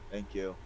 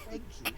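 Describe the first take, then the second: First: It is said in a normal speaking voice. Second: It is said in a put-on character voice. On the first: The speaker calls it right. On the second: The speaker calls it wrong.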